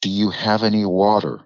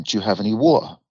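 First: Put-on American pronunciation of "water"; American accent. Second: British "water", t kept, no final r; English accent on "water"; British pronunciation. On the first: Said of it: "didn't have an American accent". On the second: Retold or imitated. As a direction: ask for WATER in a London accent. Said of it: "the way you pronounce words".

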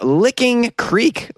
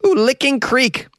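First: Said in the usual way. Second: High, slow, suggestive echo; mock-titillated, drawn-out repeat; teasing ooh. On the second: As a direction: savor the rude-sounding name up high. Repeats rude-sounding name with an ooh.

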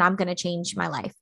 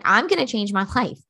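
First: Said in the usual way. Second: "I'm gonna change my life" punched out with conviction; emphatic declaration. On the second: Shown as a demonstration. Coach showing listeners how to commit, emphatic "I'm gonna change my life". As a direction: say "I'm gonna change my life" like you mean it, pitch jumping up early. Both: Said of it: "Say it, like".

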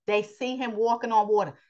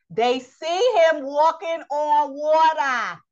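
First: Said in the usual way. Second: "They see him walking on water" slow, higher and louder, hitting "see"; emphatic repeat. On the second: Acted. Preacher driving home the miracle to the congregation, slow and emphatic.

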